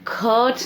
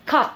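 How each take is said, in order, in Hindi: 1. स्वर लंबा खिंचा हुआ है। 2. स्वर छोटा और क्रिस्प है। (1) "तो हम उसको खट नहीं बोलेंगे" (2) "हम उसको बोलेंगे खट"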